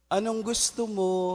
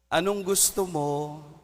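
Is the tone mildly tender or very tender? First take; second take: very tender; mildly tender. First: It is said in a very tender tone. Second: It is said in a mildly tender tone.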